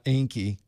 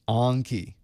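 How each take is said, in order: First: The first vowel is a hard A. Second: The first vowel is a soft A. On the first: The speaker calls it wrong. "It's not Enki. ... not the hard A" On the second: The speaker calls it right. "the soft A"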